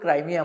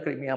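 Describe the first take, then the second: First: The first vowel sounds like 'eye'. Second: The first vowel sounds like 'ee'. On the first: This is the American way of saying it. "त्याला American लोकं क्रायमिया म्हणतात" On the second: This is the local way of saying it. "आपण त्याला क्रिमिया म्हणतो"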